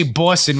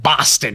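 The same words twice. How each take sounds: First: "Boston" said with a Boston vowel, no r; Boston accent Boston. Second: "Boston" with an open New York "ah" vowel. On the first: Shown as a demonstration. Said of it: "when we say Boston". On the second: Retold or imitated. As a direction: mimic a New Yorker saying "Boston". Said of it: "You guys say, like".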